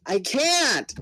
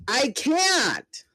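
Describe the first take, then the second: First: High, raised desperate cry; a fighter who cannot help the others cries out; panicked cry. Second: The same fighter cries out again in despair; desperate shout. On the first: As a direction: plead it helplessly. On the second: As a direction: yell it out in despair. Panicked cries in the battle. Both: Acted.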